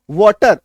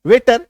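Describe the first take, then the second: First: वाटर said with an open "waa" like water; correct pronunciation. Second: वेटर said with "ay" like waiter; wrong pronunciation. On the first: Teacher giving students the correct वाटर. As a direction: say वाटर with the vowel as in water, firmly. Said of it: "इसका उच्चारण क्या होता है?". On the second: Teacher showing students the common wrong वेटर. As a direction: say वेटर with the vowel as in cat-style "ay". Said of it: "तो इसको वेटर पढ़ देंगे". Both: Shown as a demonstration.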